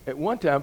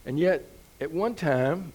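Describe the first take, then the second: First: Said in the usual way. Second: Slowed down, leaning on one with a rise; slow emphasis. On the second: Shown as a demonstration. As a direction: stretch out at one time and lift the word one.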